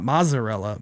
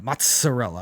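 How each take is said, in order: First: The double z is said without ts. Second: The double z is said as ts. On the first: The speaker calls it wrong. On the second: The speaker calls it right. "double Z's is always the tss sound"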